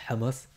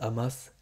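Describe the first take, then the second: First: It is pronounced the Arabic way. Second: It is pronounced the French way. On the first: "les Arabes disent Hamas" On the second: "les Français disent Hamas"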